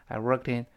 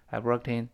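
Both takes have the same delivery.

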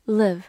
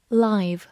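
First: "live" with a short i, rhyming with give; "live" pronounced liv; verb pronunciation. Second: "live" with a long i, rhyming with five; "live" pronounced lyve; adjective pronunciation. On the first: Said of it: "读作live". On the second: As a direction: say "live" as the adjective, with the eye vowel. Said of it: "或者读作live". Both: Shown as a demonstration.

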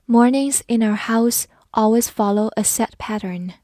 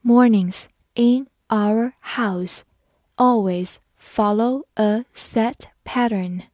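First: Said in the usual way. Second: Mornings in our house read slowly, word by word. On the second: Shown as a demonstration. Teacher reading slowly so students repeat after her. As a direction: read it slowly for learners to follow. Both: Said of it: "好，慢慢来读".

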